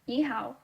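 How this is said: It is spoken with Mandarin pronunciation. "for Beijinghua or Mandarin"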